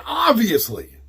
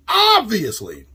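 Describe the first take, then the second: First: Said in the usual way. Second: "obviously" stretched long on a held first syllable; emphatic repeat. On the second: Real, not acted. Host stressing the most obvious purchase, "obviously" drawn out emphatically. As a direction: draw out "obviously" slowly to hammer it home.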